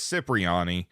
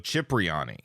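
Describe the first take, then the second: First: It begins with an s sound. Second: It begins with a ch sound. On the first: The speaker calls it wrong. "we mostly know it as" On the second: The speaker calls it right. "pronounced C H like in chocolate"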